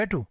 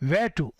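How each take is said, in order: First: "Where to?" rattled off quickly with falling tune; "Where to?" short and hurried, no questioning lilt; wrong intonation. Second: "Where to?" drawn out as a real question; slower, fuller "Where to?" with an asking tune; questioning intonation. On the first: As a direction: toss off "Where to?" fast, not like a question. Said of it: "ऐसे नहीं बोलना". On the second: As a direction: ask "Where to?" deliberately, giving each word room. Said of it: "सवाल जैसे सवाल पूछ रहे हो". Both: Shown as a demonstration.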